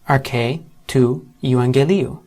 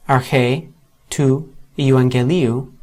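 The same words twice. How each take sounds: The two takes are said the same way.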